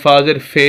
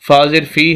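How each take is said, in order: First: The final vowel is an 'e' sound. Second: The final vowel is a short 'ee' sound. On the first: The speaker calls it wrong. "तो कोई पढ़े" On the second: The speaker calls it right. "फाजिर फ़ी है"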